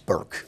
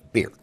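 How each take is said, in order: First: The surname is said the English way. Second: The surname is said the German way. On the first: This is the anglicized form used professionally. "Anglicize mean it's Burke" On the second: This is the family's original pronunciation. "That's the German pronunciation"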